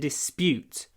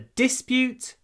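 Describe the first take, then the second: First: The stress is on the second syllable. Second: The stress is on the first syllable. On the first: It is used as a verb. "So the verb is to dispute" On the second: It is used as a noun. "The stress is on the first syllable"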